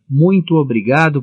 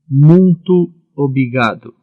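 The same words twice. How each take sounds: First: It is said in a clear, normal voice. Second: It is said in a nasal, blocked voice. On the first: The speaker calls it right. "Agora repito o mais corretamente" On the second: The speaker calls it wrong. "só conseguir dizer fanhosamente"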